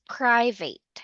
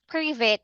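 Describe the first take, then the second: First: The first syllable sounds like 'pry'. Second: The first syllable does not sound like 'pry'. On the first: The speaker calls it right. "should be private" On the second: The speaker calls it wrong. "instead of saying private"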